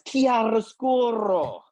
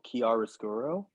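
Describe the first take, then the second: First: The word is over-pronounced in an Italian style. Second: The word is said plainly, without exaggeration.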